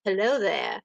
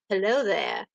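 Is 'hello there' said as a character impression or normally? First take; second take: impression; impression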